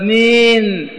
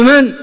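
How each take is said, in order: First: It is said in a soft, tender way. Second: It is said in a plain, firm way.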